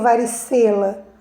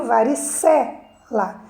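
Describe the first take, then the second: First: "varicela" run together with closed "ê" in "ce"; mispronounced varicela. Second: "varicela" slow, with open "cé" held, then "la"; stress on CE. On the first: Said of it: "Eu não leio varicela". ("varicela" com "ê" fechado, dito como "varicêla") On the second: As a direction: lean on open "cé" in "varicela", pause before "la". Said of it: "eu leio varicela". ("varicela" devagar, com "cé" aberto e forte) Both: Shown as a demonstration.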